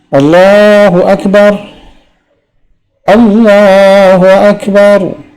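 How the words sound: A breath pause separates the two phrases. "wakaf pada lafal Allahu Akbar yang pertama, ambil nafas baru"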